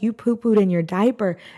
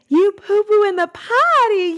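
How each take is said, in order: First: It is said in a disappointed tone. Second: It is said in an excited, happy tone.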